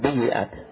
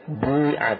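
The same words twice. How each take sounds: First: The y sound is followed by an i vowel. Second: The y sound has no vowel after it. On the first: The speaker calls it wrong. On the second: The speaker calls it right. "ini ya-nya bukan di kasrah, ya, di sukun"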